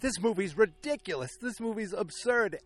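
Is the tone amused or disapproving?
amused. It sounds amused, said with a grin.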